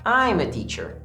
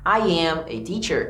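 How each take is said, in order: First: I and am merge into one contracted syllable. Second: I and am are said as separate words. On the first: "eu poderia falar I'm a teacher" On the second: "em vez de falar I am a teacher"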